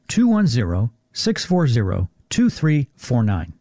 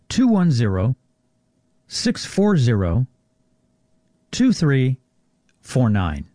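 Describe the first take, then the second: First: The number is said at normal speed. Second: The number is said more slowly.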